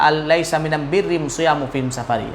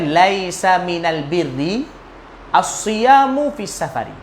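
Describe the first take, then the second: First: It is said in the listeners' local dialect form. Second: It is said in the standard Arabic form.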